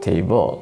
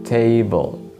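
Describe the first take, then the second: First: The stress is on the second syllable. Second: The stress is on the first syllable. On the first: The speaker calls it wrong. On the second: The speaker calls it right. "the stress is usually on the first syllable"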